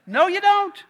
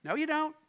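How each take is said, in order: First: Higher, louder firm no; a loud flat refusal; emphatic retort. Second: Said in the usual way. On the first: Shown as a demonstration. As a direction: slam it shut, louder and higher.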